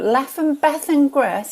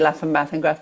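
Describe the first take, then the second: First: It is said in a posh Southern English accent. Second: It is said in a Northern English accent.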